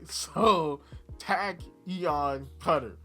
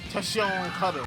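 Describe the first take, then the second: First: The first word sounds like 'tachyon'. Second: The first word sounds like 'tession'. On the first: The speaker calls it right. "It's Tachyon Cutter" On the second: The speaker calls it wrong. "I've now I've been told I said this wrong"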